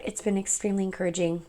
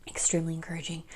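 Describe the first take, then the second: First: Said in the usual way. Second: Soft whispered echo of the phrase; hushed whispered repeat. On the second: Real, not acted. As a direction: breathe the words as a quiet afterthought.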